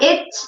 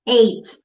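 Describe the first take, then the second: First: The vowel is short, like in 'it'. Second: The vowel is long, like in 'eight'. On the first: The speaker calls it wrong. "Not it" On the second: The speaker calls it right. "you say eight. Like number eight"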